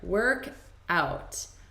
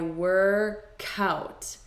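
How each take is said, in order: First: The two words are said separately. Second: The K sound joins onto the next vowel.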